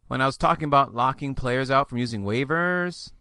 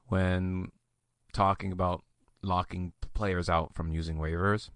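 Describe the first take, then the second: First: "waivers" lifted at the end like a question; uptalk. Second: Low, soft creaky voice; vocal fry growl. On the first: Host on locking players out, in uptalk with "waivers" rising. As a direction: let the long phrase climb up on "waivers" as if asking. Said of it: "like I'm asking a question". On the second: Host on locking players out of waivers, in a low vocal fry. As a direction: let it sink into a quiet, low growl. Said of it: "I did that thing". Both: Shown as a demonstration.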